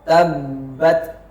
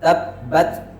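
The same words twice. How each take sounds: First: The doubled b lets the voice flow on. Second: The doubled b stops the voice abruptly. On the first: The speaker calls it wrong. "ba-nya itu terlalu kuat aliran suaranya" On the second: The speaker calls it right. "Tabbat harusnya dibaca tabbat"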